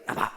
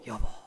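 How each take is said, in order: First: It is said in a cold, harsh tone. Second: It is said in a soft, loving tone.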